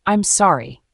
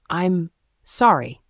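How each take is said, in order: First: Louder bitter apology. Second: Slow apology through gritted teeth. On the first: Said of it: "louder this time". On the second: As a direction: force it out through clenched teeth. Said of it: "through gritted teeth". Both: A narrator's reading.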